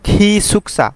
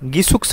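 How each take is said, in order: First: The word begins with an aspirated k sound. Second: The word begins with a g sound. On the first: The speaker calls it right. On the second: The speaker calls it wrong. "গিসুকসা হবে না"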